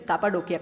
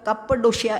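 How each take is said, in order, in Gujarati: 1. અંત 'k' અવાજથી બોલાય છે. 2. અંત 'sh' અવાજથી બોલાય છે. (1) "આપણે તો બધું સ્પેલિંગ પ્રમાણે ઉચ્ચાર કરનારા" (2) "એ લોકો તો કપ્પડોશિયા એમ બોલે"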